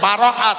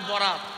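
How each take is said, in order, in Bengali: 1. শব্দটি লম্বা করে বলা হয়, তিন শব্দাংশে। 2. শব্দটি ছোট করে বলা হয়, দুই শব্দাংশে। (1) "প্র্যাকটিস করে নিন" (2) "বলবেন না"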